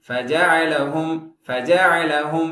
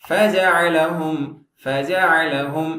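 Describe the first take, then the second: Both takes have the same delivery.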